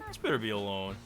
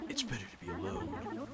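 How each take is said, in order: First: It is read in a plain, ordinary voice. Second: It is read in a put-on character voice.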